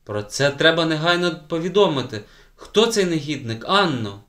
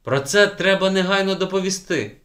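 First: Higher and louder, urgent demand; indignant. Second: Higher and louder, urgent indignation; indignant. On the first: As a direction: press the child for the name. Outraged teacher demands name. (обурено й наполегливо) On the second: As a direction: insist it must be reported now. Outraged teacher. (обурено й рішуче) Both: A narrator's reading.

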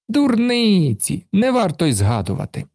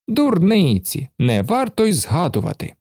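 First: Carefree brush-off. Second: High, airy brush-off; dismissive Karlsson. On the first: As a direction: shrug it off carelessly. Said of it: "безжурно махнув". (безжурно, легковажно) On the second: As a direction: wave it away carelessly. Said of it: "мовив Карлсон". (легковажно відмахується) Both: A narrator's reading.

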